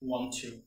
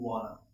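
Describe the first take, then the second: First: Both words are said fully and separately. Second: The words are blended into one reduced word.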